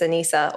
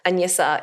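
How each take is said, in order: First: It is said with a plain English 'n' sound. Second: It is said with a soft Russian 'ny' sound.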